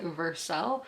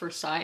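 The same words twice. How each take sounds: First: The name is given the local Kentucky pronunciation. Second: The name is given its French pronunciation. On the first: "In Kentucky, it was like Versailles" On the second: "in French should be pronounced Versailles"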